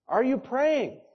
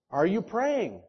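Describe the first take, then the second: First: Higher and more urgent on the repeat; pressing, higher repeat. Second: Said in the usual way. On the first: Shown as a demonstration. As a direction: push the question home.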